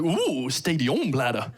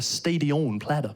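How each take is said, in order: First: Slow, savoured food name with an ooh; impressed, French-sounding. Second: Said in the usual way. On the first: Retold or imitated. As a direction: act intrigued by a fancy French dish. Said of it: "Sounds French".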